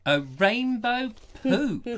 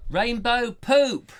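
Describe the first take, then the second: First: Slow, high mock disbelief; disbelieving. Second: Slow, loud, higher exclamation; gleeful shout. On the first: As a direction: echo it in comic shock. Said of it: "incredulous echo". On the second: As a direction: shout it with delight. Joyful shout of the punchline. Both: Real, not acted.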